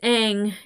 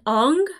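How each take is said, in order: First: The vowel sounds like the one in 'hang'. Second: The vowel sounds like the one in 'on'. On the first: The speaker calls it right. "It's Aang" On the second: The speaker calls it wrong.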